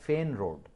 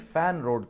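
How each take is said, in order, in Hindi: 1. पहला स्वर 'fen' में 'e' जैसा सुनाई देता है। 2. पहला स्वर 'fan' में 'a' जैसा सुनाई देता है। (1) "फेन रोड है यार" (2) "उसको नेसेसरली फैन रोड कहते हैं आमतौर पे लोग"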